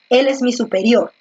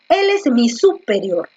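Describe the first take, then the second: First: The stress is on the last syllable, rior. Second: The stress is on the first syllable, su. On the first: The speaker calls it right. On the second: The speaker calls it wrong.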